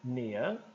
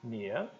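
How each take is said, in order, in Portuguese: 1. Sotaque britânico com o R final omitido. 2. Sotaque britânico com o R final omitido.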